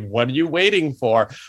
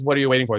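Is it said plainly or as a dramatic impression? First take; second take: impression; plainly. First: It is a dramatic impression of the character. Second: It is said plainly, without dramatic flair.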